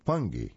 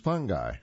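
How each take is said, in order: First: It is said with a British pronunciation. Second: It is said with an American pronunciation. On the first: "The British is" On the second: "we're going to use the American pronunciation for F-U-N-G-I"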